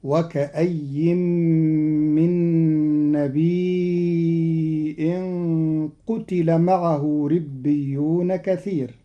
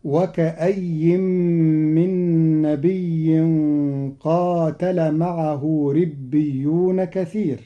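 First: نبي drawn out with a hamza, "nabii'in"; Qalun passive reading. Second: نبي with doubled y, "nabiyyin"; usual reading, qaatala. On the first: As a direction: say قتل as "qutila", no long vowel. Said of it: "بضم القاف وكسر التاء". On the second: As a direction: say قاتل as "qaatala", long first a. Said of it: "كما قرأ قاتل". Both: Shown as a demonstration.

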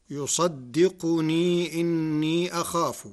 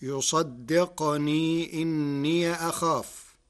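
First: يصدقني with damma on qaf, yusaddiqunī; يصدقني as yusaddiquni; standard reading. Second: يصدقني with sukun on qaf, yusaddiqnī, slow; يصدقني as yusaddiqni, إني as inniya; Warsh reading. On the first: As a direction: keep qaf voweled in يصدقني. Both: Shown as a demonstration. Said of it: "بسكون القاف".

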